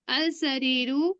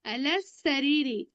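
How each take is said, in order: First: Slow "अल सरीरु", ending on u. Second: Slow "अल सरीरी", ending on i. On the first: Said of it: "मैं यहाँ पे एक पेश क्यों लगा ली?". (धीरे से "अल सरीरु", आख़िर में उ) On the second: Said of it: "अब मैं इसको बोल रही हूँ अल सरीरी". (धीरे से "अल सरीरी", आख़िर में ई) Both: Shown as a demonstration.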